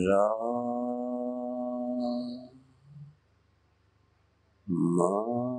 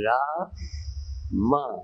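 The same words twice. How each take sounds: First: The syllables are drawn out very slowly. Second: The syllables are said very quickly. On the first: "बहुत धीमी" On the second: "बहुत जल्दी, तीव्र गति से"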